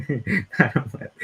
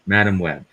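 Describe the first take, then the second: First: Slow, high, mocking drawl on Madam Web; sarcastic. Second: Said in the usual way. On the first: Shown as a demonstration. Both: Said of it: "that's me being sarcastic there".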